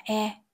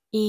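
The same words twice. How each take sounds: First: "E" said as a short open eh; sound of E. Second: "E" said as a long ee; long ee sound. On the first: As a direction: demonstrate "E" as eh, not ee. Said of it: "E được phát âm là". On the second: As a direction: demonstrate "E" as ee, not eh. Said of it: "E chúng mình phát âm là Y dài". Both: Shown as a demonstration.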